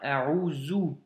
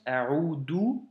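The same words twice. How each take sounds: First: The middle consonant is a buzzing z sound. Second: The middle consonant is a plain d sound. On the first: "ou bien A'udhu" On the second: "récitent ou du moins prononcent A'udhu"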